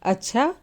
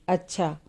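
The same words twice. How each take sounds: First: It is said in a surprised tone. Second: It is said in a plain, neutral tone. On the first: The speaker is astonished by the news. "इसमें आश्चर्य का भाव हो गया।" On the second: The speaker simply acknowledges the request. "इसमें सामान्य भाव हुआ।"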